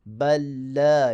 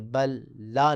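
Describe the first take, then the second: First: The two l sounds merge into one doubled l. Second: The two l sounds are pronounced separately. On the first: The speaker calls it right. "बल्कि बल ला यख़ाफ़ून" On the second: The speaker calls it wrong. "फिर अलहदा नहीं पढ़ेंगे, बल ला नहीं"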